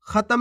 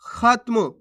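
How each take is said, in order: First: खत्म as kha-tam; full-letter misreading. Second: खत्म as khat-mu, त joined to म; no vowel after त in खत्म; half-letter pronunciation. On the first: Teacher warns learners, खत्म with full ता. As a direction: put a vowel after त in खत्म. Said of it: "पूरा ता का उच्चारण हो जाएगा". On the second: Teacher answers how to read it, खत्म with half त. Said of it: "कैसे पढ़ेंगे". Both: Shown as a demonstration.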